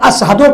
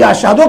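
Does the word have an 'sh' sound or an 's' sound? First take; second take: s; sh. First: The word is said with an 's' sound. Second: The word is said with an 'sh' sound. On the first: "ये तो शीन कहीं नहीं पाते हैं" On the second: "अशहदों के बजाय"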